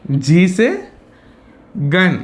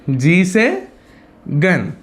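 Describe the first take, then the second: No difference in how they are said.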